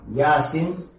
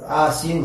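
First: The word begins with a y sound. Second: The word begins with a plain vowel. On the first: This is how other dialects say it. "некоторые говорили как «ясин»" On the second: This is how some dialects say it. "Некоторые говорят «асин»"

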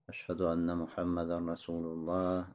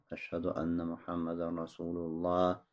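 No difference in how they are said.

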